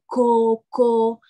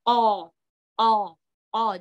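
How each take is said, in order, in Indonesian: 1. Konsonan itu terdengar ringan, seperti k biasa. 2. Konsonan itu terdengar dalam dan bergema di tenggorokan. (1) "Jadi salah kalau misalnya kita bacanya ko ko" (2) "tapi dia o o o"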